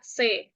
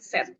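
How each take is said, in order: First: The word ends in a vowel, without t. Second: The word ends with a t sound. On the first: The speaker calls it right. "disebut atau dibaca C" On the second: The speaker calls it wrong. "bukan set"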